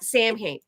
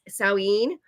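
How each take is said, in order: First: The first syllable sounds like 'Sam'. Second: The first syllable does not sound like 'Sam'. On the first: The speaker calls it wrong. "so many people say it's Sam, Samhain. It's not Samhain" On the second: The speaker calls it right. "It's Samhain"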